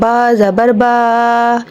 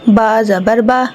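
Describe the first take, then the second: First: The final vowel is stretched out long. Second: The final vowel is short and quick. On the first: The speaker calls it wrong. "मज़ीद हम एक अलीफ का इजाफा कर रहे हैं, हमने इसे खींचना नहीं है" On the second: The speaker calls it right. "इन्हें जल्दी पढ़ा जाता है ... तो ये सही होगा"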